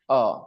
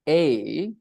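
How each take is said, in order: First: The word has a reduced schwa vowel. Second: The word has a full, stressed vowel. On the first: "when we talk about weak pronunciation, then it is pronounced a" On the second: "One is the strong pronunciation"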